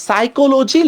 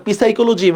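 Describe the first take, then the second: First: "সাইকোলজি" drawn out slowly, starting on s; silent p. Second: "পি সাইকোলজি" with an added pee at the front; sounded silent p. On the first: Teacher introducing spelling example to class, silent p. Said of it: "পির কি উচ্চারণ হয়?". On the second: Teacher asking class if anyone says this, sounded silent p. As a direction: say "পি সাইকোলজি" pronouncing the written p. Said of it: "আমরা পি সাইকোলজি বলি না". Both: Shown as a demonstration.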